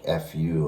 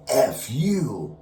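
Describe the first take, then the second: First: Said in the usual way. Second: Higher, louder mock angry retort; angsty curse. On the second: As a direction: throw it out with extra angst. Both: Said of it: "with a little bit of angst, a little extra".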